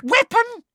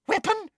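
First: Very high, loud thrilled echo; excited. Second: Startled. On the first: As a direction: seize on the word with glee. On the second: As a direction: catch the word in disbelief. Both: Acted. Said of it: "eyes seemed to pop with excitement".

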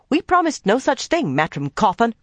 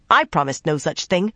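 First: High, loud snap, stress on promised; angry snap. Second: I stressed with a rise. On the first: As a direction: snap back, hitting promised. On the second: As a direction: lean hard on the word I. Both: A narrator's reading. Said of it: "Nynaeve snapped".

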